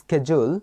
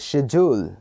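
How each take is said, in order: First: It is said the American way, 'sked-yool'. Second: It is said the British way, 'shed-yool'.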